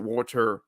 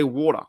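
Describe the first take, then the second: First: Water with a hard R on the end; American-style hard R. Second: Water ending in "-tuh", no R; Australian soft R. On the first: Australian mocking how water isn't said, hard final R. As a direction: say "water" as "WAR-turr", R fully sounded. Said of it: "I don't pronounce it water". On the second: Australian showing friend how we say it, water without R. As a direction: say "water" as "WAR-tuh", R dropped. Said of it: "We say water". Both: Shown as a demonstration.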